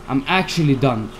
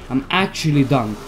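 No difference in how they are said.

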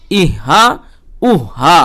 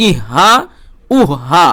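Both takes have the same delivery.

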